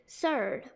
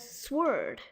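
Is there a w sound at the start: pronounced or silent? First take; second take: silent; pronounced. First: No w sound follows the s. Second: A w sound follows the s. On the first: The speaker calls it right. "it's supposed to be surd" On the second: The speaker calls it wrong. "You might have been saying it as sword"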